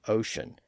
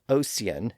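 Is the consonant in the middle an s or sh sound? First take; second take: sh; s. First: The middle consonant is a sh sound. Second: The middle consonant is a plain s sound. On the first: This is the modern pronunciation. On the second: This is the older pronunciation from the fifteen hundreds.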